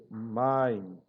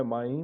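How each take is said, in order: First: "maim" said slowly, stress on the first syllable "ma"; teacher gives the right "maim", first syllable stressed, drawn out; correct stress demo. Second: "maim" with the stress pushed onto the final "im"; teacher shows the wrong way to say "maim", stress at the end; wrong stress demo. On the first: Teacher to students, slow correct stressed demo. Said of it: "mas é maim". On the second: Teacher to students, demoing wrong stress. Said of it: "não é maim". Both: Shown as a demonstration.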